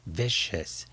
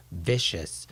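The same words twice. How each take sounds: The two takes are said the same way.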